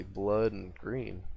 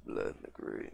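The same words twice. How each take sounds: First: Said in the usual way. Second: Breathy whispered repeat, much lower; hushed creepy echo of the phrase. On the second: Acted. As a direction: whisper it back to yourself. Repeats phrase, second take whispered.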